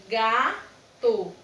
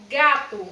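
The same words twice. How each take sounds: First: GATO split into GA, pause, TO; teacher breaking GATO into GA and TO; syllable by syllable. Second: Said in the usual way. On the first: Shown as a demonstration. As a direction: say GATO in two separate beats, GA... TO. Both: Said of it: "ao falar sílaba por sílaba".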